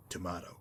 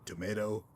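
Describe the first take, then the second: First: "tomato" with an open ah in the middle, tuh-MAH-toh, lower and softer. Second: "Tomato" with a long ay in the middle, tuh-MAY-toh. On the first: Answering the first tomato dismissively, "tomato" as to-MAH-to. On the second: Shrugging off the pronunciation question, "Tomato" as to-MAY-to. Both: Acted. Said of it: "Do you pronounce it courier or courier?".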